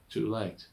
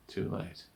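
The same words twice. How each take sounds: First: Said in the usual way. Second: Soft, near-whispered echo; hushed regret. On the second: Acted. Doctor confessing he was drawn in, hushed regret. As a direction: let it sink almost to a whisper.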